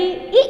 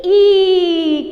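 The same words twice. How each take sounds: First: ई said as a short, quick sound; brief vowel. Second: ई held long and loud; long vowel. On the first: Teacher modelling for pupils, ई cut short. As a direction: keep ई brief, almost a single beat. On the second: Teacher modelling for pupils, ई loud and drawn out. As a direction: stretch ई out with force. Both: Shown as a demonstration. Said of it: "कैसे pronounce करोगे?".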